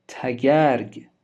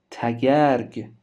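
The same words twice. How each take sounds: The two takes are said the same way.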